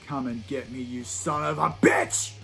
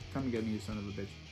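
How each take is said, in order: First: It is said with passion and emotion. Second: It is said flatly, without emotion.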